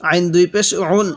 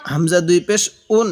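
First: "উন" pressed from the throat as ain; pressed Arabic ain. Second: "উন" begun as hamza, without pressure; unpressed hamza. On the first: Teacher repeats the ain example, "উন" with pressure. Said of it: "আইনটা পড়ার সময় একটু চাপ দিয়ে পড়ব". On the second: Teacher repeats the hamza example, "উন" without pressure. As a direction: start "উন" lightly, no pressed ain. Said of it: "হামজাটা পড়ার সময় একটু চাপ দিব না". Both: Shown as a demonstration.

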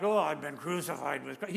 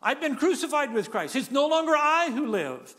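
First: Low, sighing mock lament; mock groaning. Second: Raised, louder celebratory proclamation; rejoicing. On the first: Preacher mocking a groaning Paul, low and mournful. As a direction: moan it like a reluctant martyr. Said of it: "He's not groaning about the fact". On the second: Retold or imitated. Preacher voicing Paul celebrating his funeral, joyful and loud. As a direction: proclaim it like a victory. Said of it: "he's rejoicing".

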